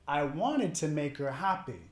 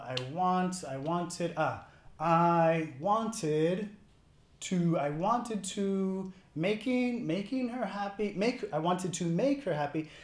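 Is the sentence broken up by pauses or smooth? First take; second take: smooth; broken up. First: The sentence flows smoothly without any pauses. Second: The sentence is broken up by hesitant pauses. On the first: The speaker talks fluently. The speaker calls it right. "Para hablar con fluidez, no queremos una pausa acá. Queremos decir" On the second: The speaker is struggling to find the words. The speaker calls it wrong. "Y están haciendo pausas"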